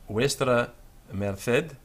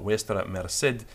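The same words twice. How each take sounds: First: The c in merced has a th sound. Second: The c in merced has an s sound. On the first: "in the Castilian pronunciation" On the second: "in the South American, uh, Mexican pronunciation"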